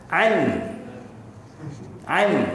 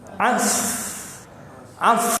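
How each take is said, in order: First: The n sound is pronounced clearly and fully. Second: The n sound merges into the following s sound. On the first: "kalau dia izhar" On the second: "Kalau dia idgham, as as dia masuk"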